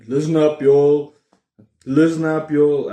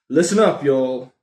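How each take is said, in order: First: Loud, hammed-up American call of "Listen up, y'all" repeated; American thing. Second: Playful American hype call, a bit louder; rally viewers with a mock American "Listen up, y'all"; American thing. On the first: Vlogger mocking American YouTubers with a loud hammed-up American accent. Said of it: "every fifth word I'm gonna try to". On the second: Vlogger rallying viewers in a loud mock American accent. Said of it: "I'm doing the American thing".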